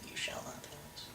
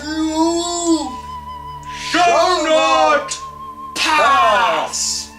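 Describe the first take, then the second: First: It is said in a weak, wimpy voice. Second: It is said in a powerful, commanding voice.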